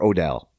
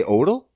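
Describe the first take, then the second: First: "Odell" said oh-DELL, full vowel at the end; second syllable of "Odell" fully voiced; alternative pronunciation. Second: "Odell" said OH-dl, second syllable swallowed; unstressed, reduced ending on "Odell"; first-syllable stress pronunciation. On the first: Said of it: "You say Odell or Odell?". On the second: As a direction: say "Odell" to rhyme with yodel. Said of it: "I could be pronouncing this wrong". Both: Shown as a demonstration.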